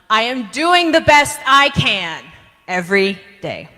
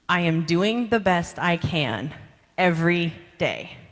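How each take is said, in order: First: It is said with high energy. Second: It is said with low energy.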